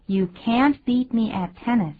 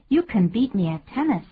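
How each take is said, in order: First: 把can't念得重而清楚，T要发出来; 强调can't，尾音T清晰; can't重读. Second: Can弱读成轻轻的“肯”音; 把can一带而过，不加重; can轻读. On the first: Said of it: "can't通常念得比较重". (美式英语，can't重读) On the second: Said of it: "所以会念得很轻". (肯定句里can念得很轻) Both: Shown as a demonstration.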